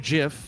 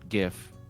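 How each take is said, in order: First: The word begins with a J sound. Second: The word begins with a hard G sound.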